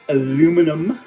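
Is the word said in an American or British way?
American. It is said the American way, four syllables.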